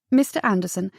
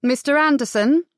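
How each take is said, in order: First: Said in the usual way. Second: Raised pitch, rising questioning call. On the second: A narrator's reading. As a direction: hail him from horseback. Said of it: "the rider called".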